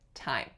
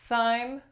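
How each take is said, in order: First: It begins with an aspirated t sound. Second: It begins with a th sound. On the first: The speaker calls it right. "we say thyme" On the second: The speaker calls it wrong. "we do not say thyme"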